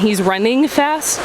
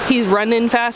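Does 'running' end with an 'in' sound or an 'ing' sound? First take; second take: ing; in. First: Running ends with a full 'ing' sound. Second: Running ends with an 'in' sound, no 'g'. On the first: "rather than" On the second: "the ing or in variation"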